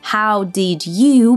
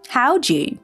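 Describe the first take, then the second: First: Each word is said fully and separately. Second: The words blend, with d and you as ju.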